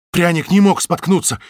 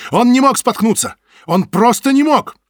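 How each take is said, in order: First: Breathless, blurted out; out of breath. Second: High, loud desperate cry; shouting. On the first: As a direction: gasp it out after running. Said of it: "запыхавшись, выпалил толстяк". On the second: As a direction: protest at the top of your voice. Butovich bursts in protesting. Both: Acted.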